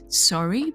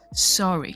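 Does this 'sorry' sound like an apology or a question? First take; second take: question; apology. First: It is said as a questioning sorry. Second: It is said as an apologetic sorry. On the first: The listener asks to hear something again. "it's actually sorry" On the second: The listener apologizes. "It's not sorry"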